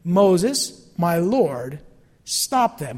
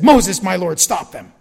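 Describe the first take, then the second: First: Pointed rereading of "Moses, my lord, stop them", each phrase set apart; lingering on "stop them" to show the irony; slow pointed rereading. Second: Urgent plea. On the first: Shown as a demonstration. Pastor dwelling on Joshua's words to the congregation, pointed. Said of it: "Now that's very interesting". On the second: Acted. Joshua voiced demanding Moses act.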